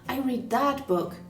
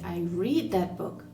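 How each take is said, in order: First: The stress falls on the word that. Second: The stress falls on the word read. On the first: It was this particular book, not another. "not the other one" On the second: I read it rather than listening to it. "I didn't listen to it on Audible"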